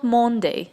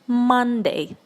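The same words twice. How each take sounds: First: The first vowel sounds like an o. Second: The first vowel sounds like an a. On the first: The speaker calls it wrong. "it's not Monday" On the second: The speaker calls it right. "it's Monday через А"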